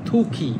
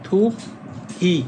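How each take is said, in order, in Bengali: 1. শব্দাংশ দুটি মিশে একটি মহাপ্রাণ ক-ধ্বনিতে পরিণত হয়। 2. দুটি শব্দাংশ আলাদাভাবে উচ্চারিত হয়।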